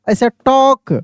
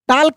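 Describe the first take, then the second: First: The L sound is silent. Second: The L sound is pronounced. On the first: The speaker calls it right. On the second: The speaker calls it wrong. "टाल्क नहीं"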